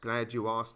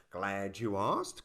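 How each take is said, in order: First: Said in the usual way. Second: Slow smug politician. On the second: Retold or imitated. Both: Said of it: "they said".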